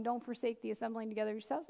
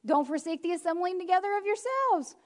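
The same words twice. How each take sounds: First: Softer, lower, lightly rising; casual softer mock reading; breezy dismissal. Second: Said in the usual way. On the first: Shown as a demonstration. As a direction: toss it off like it's easy. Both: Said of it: "it's real easy for us to do that one".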